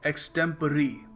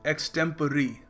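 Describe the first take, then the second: First: The word ends in an 'ee' sound. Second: The word ends in an 'ee' sound.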